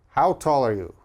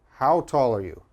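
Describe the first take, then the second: The two takes are said the same way.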